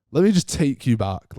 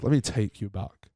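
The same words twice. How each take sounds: First: Said in the usual way. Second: Softer, lower, drifting back in time; a soft hushed flashback lead-in; dreamy reminiscing. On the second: Shown as a demonstration. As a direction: ease into a nostalgic flashback. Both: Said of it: "Reminisce music there".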